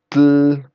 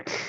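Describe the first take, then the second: First: The tl sound is hard and exaggerated. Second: The tl sound is soft, with air released sideways. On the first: The speaker calls it wrong. "no es el sonido tl" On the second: The speaker calls it right. "sino el sonido tl... es un sonido más suave"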